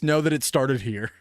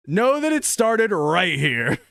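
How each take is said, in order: First: Said in the usual way. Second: "right" drawn out with emphasis; stress on right. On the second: Real, not acted. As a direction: stretch "right here" to stake the claim. Emphatic repeat claiming credit.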